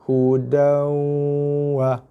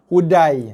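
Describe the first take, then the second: First: The word ends in an 'an' sound. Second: The word ends in an 'ai' sound. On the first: The speaker calls it right. "Daripada baris dua, terus skip kat sini" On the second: The speaker calls it wrong. "ada baca hudai"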